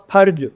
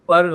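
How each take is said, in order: First: फर्ज with a breathy Hindi फ. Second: फर्ज with lips-and-teeth फ़ and ज़; Persian फ़ in फर्ज. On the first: Teacher showing the wrong Hindi फर्ज to students. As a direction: say फर्ज with aspirated फ. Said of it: "हिंदी वाले से पढ़ूंगा तो पढ़ूंगा फर्ज". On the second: Teacher modeling the correct Persian फ़र्ज़. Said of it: "फर्ज तो होता ही नहीं". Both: Shown as a demonstration.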